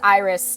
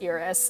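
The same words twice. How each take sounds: First: It sounds like the name of the flower. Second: It does not sound like the flower's name. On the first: This is how the name is said in this game. "It is pronounced Iris like the flower" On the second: This is how the name is said in another game. "Final Fantasy fifteen Iris is pronounced Iris"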